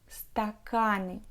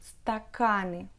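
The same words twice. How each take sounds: Both takes have the same delivery.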